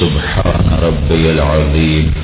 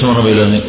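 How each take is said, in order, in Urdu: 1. یہ جملہ آہستہ پڑھا جاتا ہے۔ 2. یہ جملہ تیز پڑھا جاتا ہے۔ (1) "اس کی بجائے آہستہ آہستہ" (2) "تیز جو پڑھتے"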